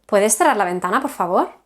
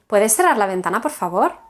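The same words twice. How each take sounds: No difference in how they are said.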